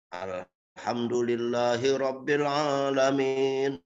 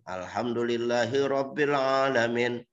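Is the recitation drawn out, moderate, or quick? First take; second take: drawn out; moderate. First: The vowels are drawn out very long. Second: The vowels are held at a moderate length. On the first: "bacanya panjang"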